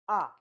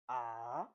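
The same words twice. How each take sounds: First: The syllable is said with the fourth tone. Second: The pitch falls and then rises. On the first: "And the fourth one is" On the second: "The third one is ah. You fall and rise"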